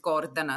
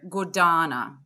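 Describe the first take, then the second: First: The stress is on the first syllable. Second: The stress is on the second syllable. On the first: This is the original pronunciation of the name. "the real pronunciation is Gordana, so the stress is on the first syllable" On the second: This is how native British speakers say it. "they would say, you know"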